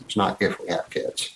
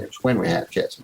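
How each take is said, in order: First: NOT hit to set it against when; the word not pressed to reject if; stress on NOT. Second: WHEN leaned on to set it against if; weight on when; the word when pressed to mark it as certain; stress on WHEN. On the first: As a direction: lean on not. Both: Shown as a demonstration.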